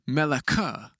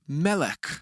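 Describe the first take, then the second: First: The word ends with an extra vowel sound. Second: The word ends on the final consonant. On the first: The speaker calls it wrong. "Notice how I didn't say meleka" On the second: The speaker calls it right. "the schwa at the end of the word means it's silent. So it's pronounced melech"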